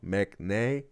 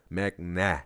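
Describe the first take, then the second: First: The final vowel sounds like ay. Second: The final vowel sounds like ah. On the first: The speaker calls it wrong. "Mac nay, wrong" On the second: The speaker calls it right. "Mac nah, not nay"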